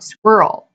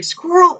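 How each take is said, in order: First: Said in the usual way. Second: Yelled out. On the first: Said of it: "somebody yells out". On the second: Retold or imitated. Someone yelling at the distracted dog, a high mock yell. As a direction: call it out like spotting one. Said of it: "So it's like".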